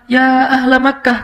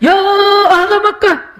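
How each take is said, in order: First: It is called out at a moderate, measured volume. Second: It is shouted with an exaggerated, changed tone.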